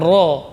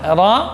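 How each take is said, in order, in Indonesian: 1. Vokal setelah "r" membulat seperti "o". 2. Vokal setelah "r" terbuka seperti "a". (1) "tidak boleh cenderung ke o, bukan ro" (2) "tapi tetap fathah ra, namun tebal"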